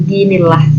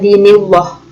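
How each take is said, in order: First: The lam is thin, vowel a plain a. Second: The lam is thick, vowel leaning toward o. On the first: The speaker calls it right. "tapi dinillah" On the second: The speaker calls it wrong. "bukan dinillah, salah ya"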